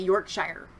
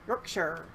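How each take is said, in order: First: It is said with an American accent. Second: It is said with a British accent. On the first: "if you were in the United States, you would literally say Yorkshire" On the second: "I think I do a good job of saying Yorkshire"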